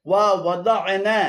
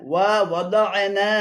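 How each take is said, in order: Both takes have the same delivery.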